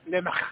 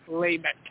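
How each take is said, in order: First: The final sound is a guttural ch. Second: The final sound is a hard k. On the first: The speaker calls it right. "the Hebrew pronunciation of words With those guttural... With the CH" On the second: The speaker calls it wrong. "not Lamech"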